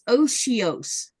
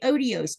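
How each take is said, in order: First: The middle consonant is an sh sound. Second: The middle consonant is a plain t or d. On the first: The speaker calls it right. "It's otios. ... you don't see no sh in the middle of that" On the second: The speaker calls it wrong. "I was going to say odios, but that's not how you say it"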